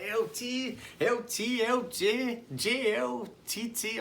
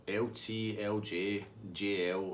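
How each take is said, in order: First: Much higher-pitched mocking character voice; teasing Tasty Dave. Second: Said in the usual way. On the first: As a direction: reel off wrong nicknames in a high squeal. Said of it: "He's like".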